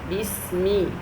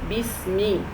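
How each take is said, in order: The two takes are said the same way.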